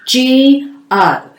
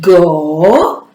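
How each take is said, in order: First: The letters are said as their alphabet names. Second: The letters are said as their short sounds. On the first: The speaker calls it right. "we must, must, must use the letter names" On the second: The speaker calls it wrong. "it will sound very funny and it will sound like this"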